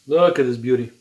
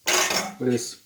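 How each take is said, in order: First: Said in the usual way. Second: Breathy whisper of awe over the dish; whispered admiration. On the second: Real, not acted. Cook whispering to viewers over the finished plate, hushed. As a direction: hush it, like you can't believe how good it looks.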